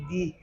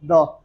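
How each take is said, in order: First: दी said with a long ee; long "thee". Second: द said short, like "duh". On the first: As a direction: say दी stretched as "thee". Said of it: "इस तरह भी कर देते हैं दी". (लंबा "दी" उच्चारण) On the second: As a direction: say द with a short neutral vowel. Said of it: "कुछ इस तरह द". (छोटा "द" उच्चारण) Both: Shown as a demonstration.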